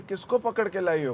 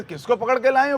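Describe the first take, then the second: First: Said in the usual way. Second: High, loud indignant echo; चिढ़ी Gopi. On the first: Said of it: "तो यशोदा बोलती है". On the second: Retold or imitated. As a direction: throw the question back in acted outrage. गोपी चिढ़कर सवाल दोहराती है. (ऊँची आवाज़ में चिढ़कर पलटा सवाल)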